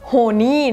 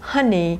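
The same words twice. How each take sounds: First: The first syllable sounds like 'ho'. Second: The first syllable sounds like 'ha'. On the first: The speaker calls it wrong. "ไม่ออกเสียงว่า honey นะไม่ใช่ ho" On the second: The speaker calls it right. "จะออกเสียงว่า"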